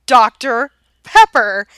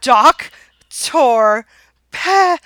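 First: DOCTOR PEPPER said slowly, word by word; slow, deliberate repeat. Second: DOC-TOR PEP-PER, each syllable loud and separate; syllable-by-syllable repeat. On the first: Husband repeating his drink order, slow and deliberate. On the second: Exasperated husband repeating his order, syllable by syllable. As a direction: break Doctor Pepper into loud, halting chunks. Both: Retold or imitated.

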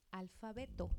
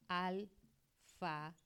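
First: Said in the usual way. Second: "Alfabeto" drawn out slowly, syllable by syllable; slow teaching demo. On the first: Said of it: "¿Por qué?". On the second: Shown as a demonstration. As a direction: stretch "Alfabeto" slowly so the parts are heard. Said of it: "Porque alfabeto tiene dos palabras".

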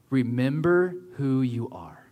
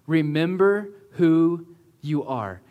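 First: Slow whispered Mufasa impression; James Earl Jones voice. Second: Said in the usual way. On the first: Preacher voicing Mufasa to Simba, slow and whispered. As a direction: breathe it like a wise ghost king. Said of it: "in the best voice possible".

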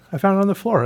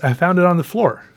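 First: Much higher, gleeful; more excited. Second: Bright, higher and louder; excited. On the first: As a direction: say it again, beaming. Repeats it, pitched even higher. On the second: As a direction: share the find with delight. Repeats the line with excitement. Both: Real, not acted.

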